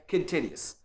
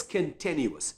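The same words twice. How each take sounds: First: "continuous" said as a learner's slip, lower and softer; low, soft, misspoken "continuous"; mispronunciation. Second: Slow, careful "continuous" with every syllable; "continuous" said carefully in full; correct pronunciation. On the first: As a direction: demonstrate a slightly off "continuous", quietly. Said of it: "If someone pronounced it this way". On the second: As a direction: model "continuous" slowly, stressed on the second syllable. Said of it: "This is the correct pronunciation". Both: Shown as a demonstration.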